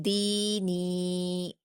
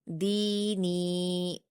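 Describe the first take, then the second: The two takes are said the same way.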